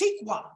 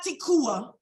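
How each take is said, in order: First: A 'w' consonant follows the k. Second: A full 'u' vowel follows the k. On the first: The speaker calls it right. "It's tikwa" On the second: The speaker calls it wrong. "It's not tikua. It's not that"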